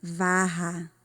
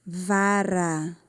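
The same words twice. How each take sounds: First: "varra" with an H-like R, VA-ha; double guttural R. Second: "vara" with a tongue-tap R; single tapped R. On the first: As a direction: keep the tongue down on the RR of "varra". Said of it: "Se eu acrescentar mais um R". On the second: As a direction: flick the tongue once on the R of "vara". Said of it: "Se dobra a língua, é só um R". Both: Shown as a demonstration.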